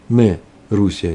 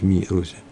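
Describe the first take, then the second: First: The first word has an e vowel. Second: The first word has an i vowel. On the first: The speaker calls it right. "то придется сказать ме Русия" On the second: The speaker calls it wrong. "Нельзя сказать ми Русия"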